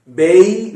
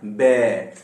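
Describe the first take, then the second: First: 'बेई' said as a wrong two-part 'bei', gliding from e to i; the wrong 'बेई' with an i glide; wrong bei. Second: 'बे' said as one plain vowel, no glide; the right 'बे', short and straight; right bay. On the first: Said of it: "बेई नहीं है वो". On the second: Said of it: "ये वाला बे". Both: Shown as a demonstration.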